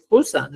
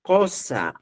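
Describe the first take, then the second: First: "Cosa" said with a harsh rasped j sound at the start, like xosa; wrong form. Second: "Cosa" said with a plain k and an o; correct form. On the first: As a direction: show the form to avoid. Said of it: "no he dicho". ("Cosa" con j áspera, forma incorrecta) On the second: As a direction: model the correct form cleanly. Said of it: "Hemos utilizado solo las tres vocales". ("Cosa" con k simple, forma correcta) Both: Shown as a demonstration.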